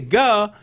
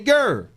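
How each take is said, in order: First: The syllable ends in a vowel without r. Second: The syllable ends with a clear r sound. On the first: This is the casual everyday way of saying it. "you don't say "guh,"" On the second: This is the careful, enunciated way of saying it. "you say "gur,""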